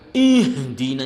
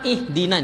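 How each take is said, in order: First: The word is pronounced with exaggerated force. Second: The word is pronounced lightly and weakly. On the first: "itu namanya berlebihan, tidak boleh" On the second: "Ada yang cuma ihdina, tidak boleh"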